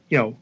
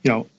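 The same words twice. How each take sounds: The two takes are said the same way.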